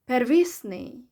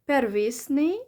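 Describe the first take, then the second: First: The stress is on a later syllable. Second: The stress is on the first syllable. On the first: "or stress on the e letter" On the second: "stress on the first syllable"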